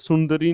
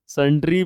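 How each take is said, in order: First: The word is said with three syllables. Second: The word is said with two syllables. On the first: The speaker calls it wrong. "सुंदरी नहीं रे" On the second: The speaker calls it right. "संड्री बे"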